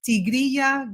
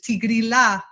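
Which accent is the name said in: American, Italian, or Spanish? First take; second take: Spanish; Italian. First: It is said with a Spanish pronunciation. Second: It is said with an Italian pronunciation. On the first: "the name is actually in Spanish" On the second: "they pronounce it the Italian way"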